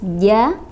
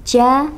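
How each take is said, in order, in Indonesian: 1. Konsonannya jelas dan tegas. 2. Konsonannya becek dengan desahan. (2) "ada desahan gitu ya ... becek"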